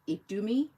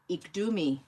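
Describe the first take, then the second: First: The consonant after 'ik' is a D sound. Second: The consonant after 'ik' is a D sound.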